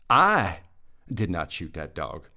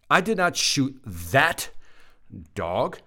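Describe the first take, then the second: First: The stress is on the word 'I'. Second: The stress is on the word 'that'. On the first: Someone else shot the dog. "I didn't shoot it. Somebody else did" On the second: The speaker shot a different dog. "I shot the other one"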